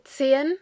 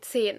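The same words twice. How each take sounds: First: The vowel in the second syllable is pronounced. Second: The vowel in the second syllable is skipped. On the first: This is careful, clear speech. "if you want to pronounce it clearly and correctly, you will pronounce the E" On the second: This is fast, normal speech. "normally when you speak fast, you will say"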